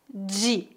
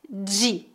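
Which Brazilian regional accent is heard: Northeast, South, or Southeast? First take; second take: Southeast; Southeast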